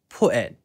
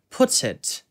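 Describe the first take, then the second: First: The t sound is dropped. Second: The t sound is clearly pronounced. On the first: "글로털 스톱 살리면은 ... T가 날아가고요" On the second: "중간에 T를 살려가지고"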